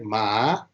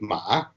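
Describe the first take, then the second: First: The pitch rises steadily from low to high. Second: The pitch dips down and then rises. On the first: "second tone case, where it is only rising" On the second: "the tone three of Chinese... the fundamental frequency dips down and rises"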